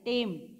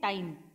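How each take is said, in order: First: The vowel is a single plain 'e'. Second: The vowel glides from 'a' to 'i'. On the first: "टाइम को हम टेम में बदल देते हैं" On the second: "जैसे हम कहते हैं टाइम"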